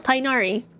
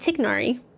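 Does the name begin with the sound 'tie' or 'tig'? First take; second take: tie; tig. First: The first syllable sounds like 'tie', no g. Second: The first syllable sounds like 'tig', with g. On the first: This is how the English dub says the name. The speaker calls it wrong. "the English one, they're like, no, Tainari" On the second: This is the original pronunciation of the name. The speaker calls it right. "it's supposed to be Tignari"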